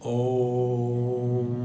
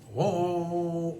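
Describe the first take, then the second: First: The final M hum is drawn out long. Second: The O vowel is drawn out long. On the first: The speaker calls it right. "म को लंबा करो।" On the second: The speaker calls it wrong. "नॉर्मली लोग ओ को लंबा करते हैं।"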